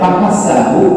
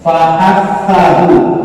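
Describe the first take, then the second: First: The middle consonant is a hissing 's' sound. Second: The middle consonant is a soft 'th' sound. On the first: The speaker calls it wrong. "kalau dibacanya fahasahu nanti berarti huruf sin" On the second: The speaker calls it right. "ini menyebutkannya jangan sampai salah ya"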